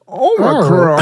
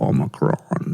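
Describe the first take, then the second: First: It is said in a higher-pitched Bane voice. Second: It is said in a lower-pitched villain voice.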